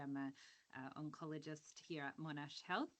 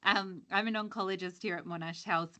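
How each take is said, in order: First: Very soft, far from the mic; faint, hard to hear; quiet voice. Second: Speaking up; projecting more than before the remark; louder. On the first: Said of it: "You're really quiet". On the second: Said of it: "I'll try and shout". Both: Real, not acted.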